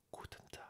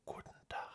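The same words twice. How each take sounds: First: Guten Tag with a French accent, full E in Guten; French accent German. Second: Guten Tag with the E dropped, Gutn; German pronunciation. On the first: Showing learners the French-accented school version. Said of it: "je le dis avec l'accent français". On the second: Teaching viewers the real German Guten Tag. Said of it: "On enlève le E". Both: Shown as a demonstration.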